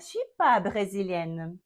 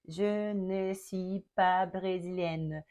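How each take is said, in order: First: The word ne is left out. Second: The word ne is clearly pronounced. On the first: This is everyday casual speech. "Ele não vai pronunciar o ne" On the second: This is the formal standard form. "ele não fala assim, todo metódico"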